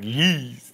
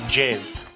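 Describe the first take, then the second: First: The name starts with a Y sound. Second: The name starts with a J sound. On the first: The speaker calls it right. "Like, yeez" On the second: The speaker calls it wrong. "it's not pronounced like that"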